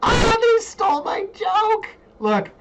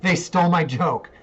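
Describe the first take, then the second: First: Very high, drawn-out mock wail; mock outrage. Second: Laughing, raised-voice protest; amused complaint. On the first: Host protesting a stolen joke to viewers, mock-outraged wail. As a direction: wail it slowly and loudly, hammed-up. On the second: Real, not acted. Host finding the listing stole their joke, amused complaint. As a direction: say it louder through a laugh.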